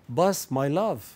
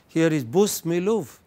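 First: The phrase is said in a London accent. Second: The phrase is said in a Manchester accent. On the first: "but in London it is" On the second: "in Manchester"

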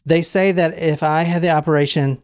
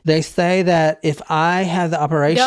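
First: It is read in a normal speaking voice. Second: It is read in a put-on character voice.

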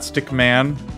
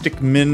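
First: The second syllable sounds like 'man'. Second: The second syllable sounds like 'min'. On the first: The speaker calls it wrong. "not Stickman. Apparently, I've been pronouncing it wrong" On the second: The speaker calls it right. "It's Stickmin"

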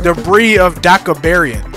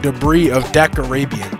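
First: The last word is pronounced Deca-barian. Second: The last word is pronounced Deca-rabian. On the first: The speaker calls it wrong. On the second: The speaker calls it right.

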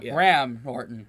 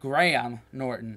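First: Graham is said like in Graham cracker. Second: Graham is not said like in Graham cracker. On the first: The speaker calls it wrong. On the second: The speaker calls it right. "Want to be sure I got that right"

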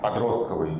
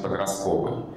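First: The word carries the older dictionary stress. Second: The word carries the newer everyday stress. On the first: This is the old dictionary norm. "почему словари говорят, что правильно подростковый" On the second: This is how everyone actually says it. "но все же вокруг произносят подростковый"

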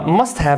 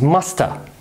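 First: 'Must have' is said in full. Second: 'Must have' is reduced to 'musta'.

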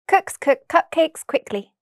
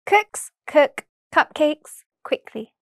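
First: The phrase is said very quickly. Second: The phrase is said very slowly. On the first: "the second time very quickly" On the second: "once very slowly"

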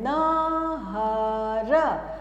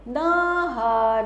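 First: It is said haltingly, in separate parts. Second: It is said smoothly, with no pauses.

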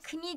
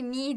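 First: The word starts with a pronounced k sound. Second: The word starts with no k sound. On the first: The speaker calls it wrong. "Bunu knee diye okursanız eğer çok güleriz" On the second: The speaker calls it right. "Knee diye okuyoruz bunu"

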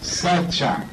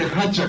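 First: The word begins with an s sound. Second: The word begins with an h sound. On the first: This is the form used in another dialect. "Otra manera es Sacha" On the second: This is the form used in one dialect. "Su dialecto de Hacha"

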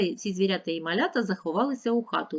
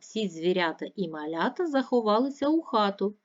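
First: It is spoken at a very fast pace. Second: It is spoken at a moderate pace. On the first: "І ще швидше" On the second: "Послухайте"

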